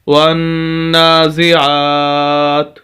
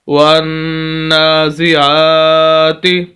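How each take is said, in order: First: The word ends on a bare t consonant. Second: The word ends with a short i vowel. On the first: The reader stops at this word. "वक्फ करेंगे, ता को साकिन कर देंगे" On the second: The reading continues without stopping. "ता जेर ती"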